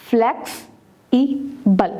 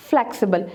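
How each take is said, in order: First: flex, ई, बल with clear gaps; syllable by syllable. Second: Said in the usual way. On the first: Shown as a demonstration. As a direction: say flex — ई — बल as three pieces. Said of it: "separate the syllables". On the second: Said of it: "flexible के कितने syllables".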